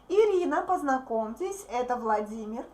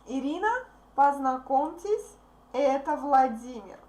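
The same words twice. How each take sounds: First: The phrase is read quickly and fluently. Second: The phrase is read slowly and carefully.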